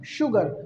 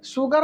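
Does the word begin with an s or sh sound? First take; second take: sh; s. First: The word begins with an sh sound. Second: The word begins with an s sound. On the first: The speaker calls it right. "तालव श होता ना" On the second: The speaker calls it wrong. "सुगर नहीं"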